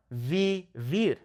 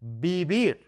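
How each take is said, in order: First: Vivir said with hard English v sounds; wrong English V. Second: Vivir with soft b-like bilabial sounds. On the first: Teacher demonstrating the wrong pronunciation. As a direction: say vivir with a buzzing English v, slowly. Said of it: "That is incorrect". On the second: Teacher demonstrating the correct pronunciation. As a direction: say vivir like bibir with soft lips. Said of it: "That soft B sound". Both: Shown as a demonstration.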